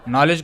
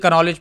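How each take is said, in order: First: The word begins with an n sound. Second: The word begins with a k sound. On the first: The speaker calls it wrong. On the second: The speaker calls it right.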